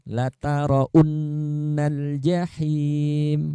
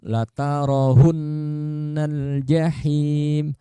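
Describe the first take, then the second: First: No consonant at all is heard in the middle. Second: An h sound replaces the w in the middle. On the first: "Atau seperti ini" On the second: "Itu ha"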